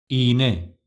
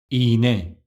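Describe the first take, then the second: No difference in how they are said.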